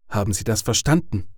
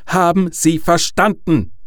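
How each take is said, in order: First: Said in the usual way. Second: High, loud, menacing demand; threatening. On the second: A narrator's reading. Caller demands an answer from Harold, threatening. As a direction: raise pitch and volume, pressing each word. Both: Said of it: "Dieses Mal klang seine Stimme bedrohlicher".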